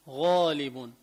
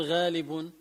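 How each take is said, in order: First: غالب with a thick "ghoo"; heavy غ. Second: غالب with a fronted "ghaa"; wrong thin غ. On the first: Teacher giving the correction, غالب with heavy غ. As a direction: back and round the غ of غالب. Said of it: "فخمة". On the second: Teacher showing the mistake, غالب with thin غ. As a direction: lighten the غ of غالب. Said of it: "ما بقول غالب". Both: Shown as a demonstration.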